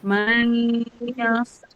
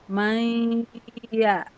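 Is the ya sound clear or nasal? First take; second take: nasal; clear. First: The ya sound stays nasal through the nose. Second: The ya sound is released clear of the nose. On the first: The speaker calls it wrong. "Jangan sampai pas ya masih di hidung kayak gini" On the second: The speaker calls it right. "Jadi pas ya-nya lepas"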